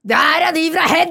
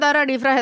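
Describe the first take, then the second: First: It is said drawn out in a mocking tone. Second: It is said in a plain, factual tone. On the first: It ridicules the people being named. "Jeg gjorde sånn her" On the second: It simply states where they come from. "Egentlig skulle jeg jo bare si"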